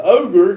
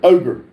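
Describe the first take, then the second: First: OGRE read with a questioning lift in the middle. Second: Said in the usual way. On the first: Retold or imitated. Reading Kitty's one-word chat comment aloud, questioning. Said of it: "question mark".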